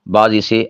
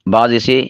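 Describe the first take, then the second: The two takes are said the same way.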